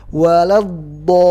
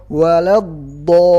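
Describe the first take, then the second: No difference in how they are said.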